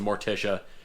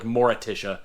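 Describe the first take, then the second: First: No extra vowel sound follows the R. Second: An extra vowel sound follows the R. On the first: The speaker calls it right. "as opposed to Morticia" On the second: The speaker calls it wrong. "I added an I after the R, so it's more like Morticia"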